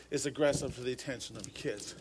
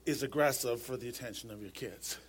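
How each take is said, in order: Both takes have the same delivery.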